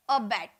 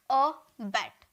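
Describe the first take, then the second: First: Said in the usual way. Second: अ बैट split into two sounds, अ, then बैट; two separate syllables. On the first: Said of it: "यहाँ दो syllable है". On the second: Shown as a demonstration. Teacher shows students two sounds, syllables said apart. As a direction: break अ बैट after अ. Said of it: "दो बार sound निकल रहा है ना".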